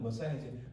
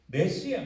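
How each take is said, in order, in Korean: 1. 이 단어는 muh-SIGH-uh로 발음해요. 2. 이 단어는 meh-SEE-ah로 발음해요. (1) "원래 영어 발음은 머사이어지" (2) "히브리어 발음도 메시아입니다"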